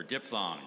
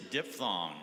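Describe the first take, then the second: First: Diphthong said with a p sound, "dip-thong"; alternative pronunciation. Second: Diphthong said with an f sound, "dif-thong"; alternative pronunciation. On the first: Pronouncer offers spellers the other pronunciation, "dip-thong". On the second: Pronouncer gives spellers the word, first pronunciation "dif-thong". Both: Shown as a demonstration. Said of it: "or diphthong".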